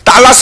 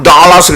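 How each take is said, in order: First: It is said with Korean pronunciation. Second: It is said with American English pronunciation. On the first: "우리말은 달라스인데" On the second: "영어식으로 발음은 달라스 그래"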